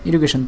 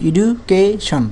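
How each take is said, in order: First: Said in the usual way. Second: education in three chunks, এডু, কে, শন; drawn-out, segmented education; divided into parts. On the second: Shown as a demonstration. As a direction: separate এডু, কে and শন with small gaps. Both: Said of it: "অংশে ভাগ করা যায়".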